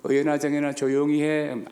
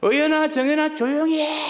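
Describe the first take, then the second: First: It is said at a moderate volume. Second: It is said loudly and forcefully.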